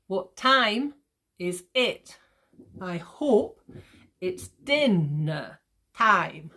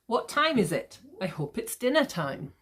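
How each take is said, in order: First: Very slow chunks, punching "time", "hope", "din" of "dinner"; "what TIME is IT, I HOPE it's DIN-ner TIME"; exaggerated iambic stress. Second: Said in the usual way. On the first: Shown as a demonstration. Teacher breaking the example into beats, exaggerated iambic stress. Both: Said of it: "I'm obviously exaggerating this".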